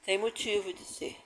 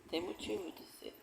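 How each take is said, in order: First: Said in the usual way. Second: Much softer, almost under the breath; fading to near silence. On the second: Real, not acted. Speaker closes her testimony to the audience, fading very softly. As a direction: let the words die away. Repeated closing remark, fading.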